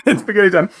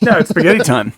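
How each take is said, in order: First: Laughing through a mouthful, higher. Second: Talking through a mouthful of spaghetti; words round a bite of food; mouth full. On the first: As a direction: giggle out the line while eating. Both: Real, not acted. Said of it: "Sorry, I'm starving".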